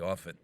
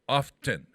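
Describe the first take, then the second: First: The T sound in the middle is silent. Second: The T sound in the middle is pronounced. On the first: "If you do without a T, you're coming directly from England" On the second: "often with a T, there's a T in that"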